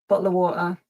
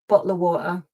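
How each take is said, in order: Both takes have the same delivery.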